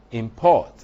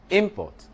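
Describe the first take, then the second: First: "import" punched loud on PORT; stress on second syllable. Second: "import" punched high on IM; stress on first syllable. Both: Shown as a demonstration. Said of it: "is in the placement".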